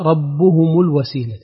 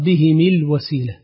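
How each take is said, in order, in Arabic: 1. الهاء والميم عليهما ضمة. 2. الهاء والميم عليهما كسرة. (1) "بضم الهاء والميم" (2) "قرأ بكسر الهاء والميم"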